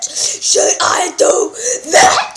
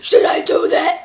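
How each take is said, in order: First: Slow menacing repeat. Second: Said in the usual way. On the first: Acted. Dad slowly repeating the threat to his son, drawn out. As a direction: stretch every word of "Should I do that?" out slowly.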